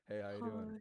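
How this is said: The greeting sounds gloomy and depressed. The speaker calls it wrong. "in a very depressing mode"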